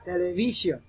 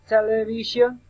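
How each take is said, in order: First: Television with the third syllable VI stressed. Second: Television with the first syllable TEL stressed. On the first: Teacher showing the other way people say it, VI stressed in television. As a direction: lean on VI, then let television fall. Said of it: "and others say television". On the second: Teacher showing one way people say it, TEL stressed in television. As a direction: lean on TEL at the start of television. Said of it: "the stress. For example, some people say". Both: Shown as a demonstration.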